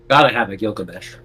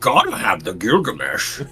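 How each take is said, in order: First: It is said in the speaker's ordinary voice. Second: It is said in an imitated character voice. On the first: The speaker calls it wrong. "I didn't say that in the right voice" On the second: The speaker calls it right. "in the right voice"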